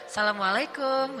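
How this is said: It is said in a flirtatious tone.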